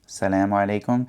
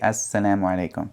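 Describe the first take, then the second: First: The greeting starts directly with 'salamu'. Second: The greeting starts with 'as' before 'salamu'. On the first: The speaker calls it wrong. "salamu alaikum without that s" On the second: The speaker calls it right. "they say assalamu alaikum"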